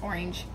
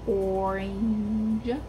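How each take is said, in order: First: The word is said quickly as one piece. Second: The word is said slowly, broken into parts. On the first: "If I try to say it fast" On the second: "I've actually tried to break up the word"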